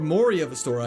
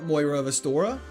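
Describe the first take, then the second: First: The first name sounds like 'Mori'. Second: The first name sounds like 'Moira'. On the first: The speaker calls it right. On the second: The speaker calls it wrong.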